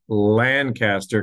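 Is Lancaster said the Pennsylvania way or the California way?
California way. Lancaster is said the California way.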